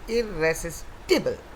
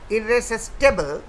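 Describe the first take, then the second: First: The ending sounds like 'tibble'. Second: The ending sounds like 'table'. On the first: The speaker calls it right. "It is irresistible, tibble" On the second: The speaker calls it wrong. "would be A, but that is not the correct pronunciation"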